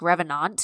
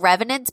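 First: The word is said with French-style pronunciation. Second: The word is said with English pronunciation. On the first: "it's probably like revenant or some shit" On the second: "It's still revenant"

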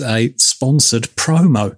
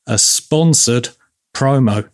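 First: It is said at normal speed. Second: It is said slowly and deliberately.

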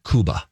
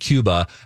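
First: Cuba is said with a Spanish pronunciation. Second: Cuba is said with an American English pronunciation. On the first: "people from Cuba in the movie are like" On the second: "the American people were pronouncing it Cuba"

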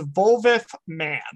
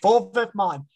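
First: The last syllable sounds like 'man'. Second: The last syllable sounds like 'mon'. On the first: The speaker calls it wrong. "I fucking said it anyway" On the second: The speaker calls it right.

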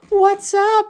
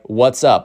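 First: It is said in a put-on voice. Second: It is said in his normal voice.

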